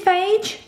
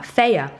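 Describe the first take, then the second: First: The name is said as one syllable. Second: The name is said as two syllables. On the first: The speaker calls it wrong. "You think it's phage? It's not" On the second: The speaker calls it right. "It's pronounced fire. Did you know that?"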